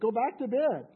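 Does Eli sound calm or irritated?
irritated. Eli sounds more irritated.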